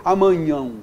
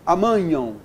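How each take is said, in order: Both takes have the same delivery.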